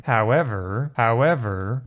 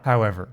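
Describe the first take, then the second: First: "however" drawn out and lifted, leading forward; rising HOWEVER. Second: "however" going down, as at the end of an idea; falling HOWEVER. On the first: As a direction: stretch "however" upward, promising more. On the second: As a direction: let "however" fall and close. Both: Shown as a demonstration. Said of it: "I'll just do the two howevers so you can compare them".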